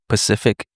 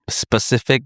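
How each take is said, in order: First: The word begins with a p sound. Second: The word begins with an s sound. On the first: The speaker calls it wrong. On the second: The speaker calls it right.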